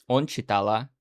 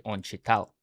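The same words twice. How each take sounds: First: "Он читала" with the feminine ending, deliberately wrong; wrong Russian form. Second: "Он читал" ending cleanly on the L, no final vowel; correct Russian form. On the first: Teacher showing viewers the wrong form, a clear demo. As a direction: say "читала" with the final -a as the mistake. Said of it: "you sound wrong". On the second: Teacher showing viewers the right form, a clear demo. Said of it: "You have to say". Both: Shown as a demonstration.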